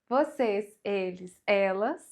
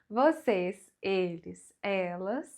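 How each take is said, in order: Both takes have the same delivery.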